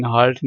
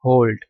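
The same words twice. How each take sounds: First: "halt" with an open "aa" vowel; "halt" spoken as spelt, with an unrounded A. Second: "halt" with a rounded O, like "holt". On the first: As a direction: say "halt" as "haalt", the mistaken reading. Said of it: "लेकिन halt नहीं पढ़ना". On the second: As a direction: say "halt" to rhyme with "bolt". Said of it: "इसको पढ़ना". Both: Shown as a demonstration.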